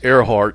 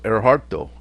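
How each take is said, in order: First: The name ends on a consonant sound. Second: The name ends with an added vowel sound. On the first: "if it's Earhart" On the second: "Japanese always has a vowel sound on everything"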